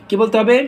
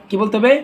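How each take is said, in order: The two takes are said the same way.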